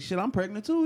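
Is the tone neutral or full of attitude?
attitude. It is said with a sassy attitude.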